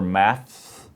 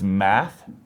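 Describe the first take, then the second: First: The word ends with an s sound. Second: The word ends without an s sound. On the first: "maths with an S" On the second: "math with no S"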